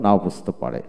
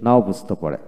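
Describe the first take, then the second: No difference in how they are said.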